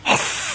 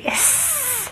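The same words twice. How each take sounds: First: A soft whispered hiss; unvoiced snake hiss, no voice at all. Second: A much higher, softer hiss; high, soft, faint hiss; squeaky hiss. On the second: Pretend. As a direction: squeak the hiss like a tiny snake. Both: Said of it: "What does a snake say?".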